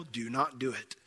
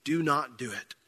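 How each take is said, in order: First: "do not do it" said low and soft, each word weighted; quiet firm warning. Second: "Do not do it" repeated, a little fuller than the first; repeated firm warning. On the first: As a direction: press "do not do it" gently but firmly. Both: Shown as a demonstration. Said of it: "So if you are in that role".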